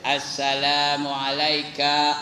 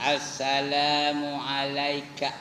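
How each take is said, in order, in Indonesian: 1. Suku kata terakhir ka dibaca panjang. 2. Suku kata terakhir ka pendek, langsung terus. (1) "Tak betul tu, ka tu bukannya ada mad ya" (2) "Dia terus ay ya"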